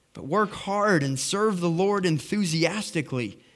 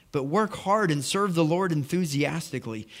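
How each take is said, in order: The two takes are said the same way.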